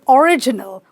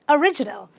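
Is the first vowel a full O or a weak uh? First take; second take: full O; weak uh. First: The first vowel is a full O sound. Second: The first vowel is a weak uh sound. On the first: The speaker calls it wrong. "people say original or original, which is wrong" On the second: The speaker calls it right. "It is simply a"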